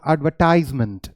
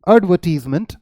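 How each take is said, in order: First: It is said with an American pronunciation. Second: It is said with a British pronunciation.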